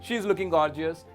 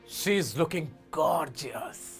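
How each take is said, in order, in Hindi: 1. इसे सपाट ढंग से पढ़ा गया है, कोई भाव नहीं। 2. इसे भाव के साथ कहा गया है, gorgeous पर ज़ोर देते हुए। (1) "इनको पहले नॉर्मली पढ़ते हैं ... कुछ नहीं था, बेकार था" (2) "गॉर्जियस पे स्ट्रेस दिया ... अलग टोन में बोला"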